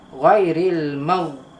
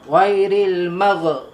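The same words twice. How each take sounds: First: The final gh is held smoothly without bouncing. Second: The final gh is released with a bouncing echo. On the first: The speaker calls it right. "di sini huruf yang bukan qalqalah dibaca dengan" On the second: The speaker calls it wrong. "Cuma jangan bunyi detakkan. Contoh, ghairil magh, magh tak boleh"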